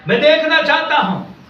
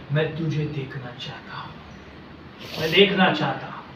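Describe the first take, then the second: First: "देखना" lifted high and pressed; emphatic plea. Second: Low, soft acted longing; hushed plea. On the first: Acted. Blind man insists to the Lord, emphatic plea on "देखना". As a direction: declare it with a raised "देखना चाहता हूँ". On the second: Blind Bartimaeus tells the Lord his wish, hushed plea. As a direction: say the wish quietly and intimately.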